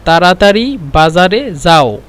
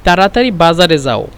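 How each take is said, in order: First: تراتري بازار زاو said slowly, each word apart; slow teaching demo. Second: Said in the usual way. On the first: Shown as a demonstration. Teacher slowing the phrase for students, slow and clear. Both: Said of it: "طيب".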